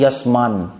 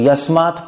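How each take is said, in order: First: The word ends with an n sound. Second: The word ends with a t sound. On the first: The word is joined to a following n. "त भी न बन जाता है" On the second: The word stands on its own. "Break करोगे तो यस्मात्"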